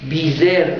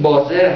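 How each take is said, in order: First: The first vowel sounds like in 'bee'. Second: The first vowel sounds like in 'bus'. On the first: The speaker calls it wrong. "اینا کلماتی که همش غلطه" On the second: The speaker calls it right. "بازر هست در واقع"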